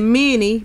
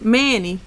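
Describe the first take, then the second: First: The first vowel sounds like 'i' in min. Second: The first vowel sounds like 'a' in man. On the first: This is how people from elsewhere say the name. "Everybody else pronounce it Minnie" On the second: This is how locals say the name. "here we are calling it Mi- Manny"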